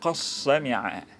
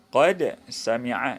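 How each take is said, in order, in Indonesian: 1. Bunyi d melebur menjadi bunyi s ganda. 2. Kata pertama berakhir dengan bunyi d.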